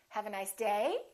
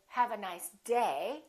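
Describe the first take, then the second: First: The pitch rises at the end. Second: The pitch falls at the end. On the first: The speaker calls it wrong. "I'm not going to say" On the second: The speaker calls it right. "I'm still going to emphasize the word day, but I'm not going to make my pitch go up"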